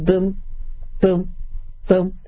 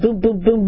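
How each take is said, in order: First: The booms follow each other at a slow pace. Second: The booms follow each other at a quick pace. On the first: The heartbeat has dangerously slowed. "the heart sounds were slow" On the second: The heartbeat is normal. "Instead of"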